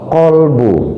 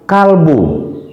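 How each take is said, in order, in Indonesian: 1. Konsonan pertama adalah q tenggorokan yang dalam. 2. Konsonan pertama adalah k depan yang biasa. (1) "harusnya kolbu, pakai qaf" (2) "kita sering mengatakan kalbu"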